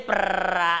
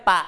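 First: "ประ" with a long, heavily rolled r after the p; wrong cluster pronunciation. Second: "ปะ" as a short bare pa, no r; no consonant cluster. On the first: Teacher showing pupils what not to say, "ประ" with rolled r cluster. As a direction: trill the r hard in "ประ". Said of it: "ไม่ใช่ประนะ มันแค่ปะเดียว ไม่ใช่คำควบกล้ำ". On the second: Teacher correcting pupils' reading, "ปะ" short without any r. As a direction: say "ปะ" short, p straight into the vowel. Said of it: "มันแค่ปะเดียว ไม่ใช่คำควบกล้ำ". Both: Shown as a demonstration.

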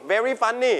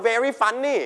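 Both takes have the same delivery.

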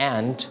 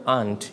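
First: "aunt" with the vowel of "ant"; American-style aunt. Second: "aunt" with an open "ah"; British-style aunt. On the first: Teacher offers first option, "aunt" like "ant". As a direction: make "aunt" rhyme with "pant". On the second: Teacher offers second option, "aunt" as "ahnt". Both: Shown as a demonstration. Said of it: "this word can pronounce in two ways".

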